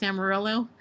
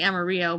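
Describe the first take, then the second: First: "Amarillo" English-style, ending ill-oh; "Amarillo" as am-a-RILL-oh; anglicized Amarillo. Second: "Amarillo" Spanish-style, ending ee-oh; "Amarillo" as am-a-REE-oh. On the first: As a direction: say "Amarillo" with a sounded L. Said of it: "It's Amarillo". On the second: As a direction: say "Amarillo" with the double L as a Y. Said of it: "it's not how you say it". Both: Shown as a demonstration.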